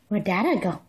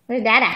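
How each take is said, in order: First: Whisper. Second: Said in the usual way. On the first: Real, not acted. Mother whispering to baby about Dada. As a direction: gasp then whisper "Dada".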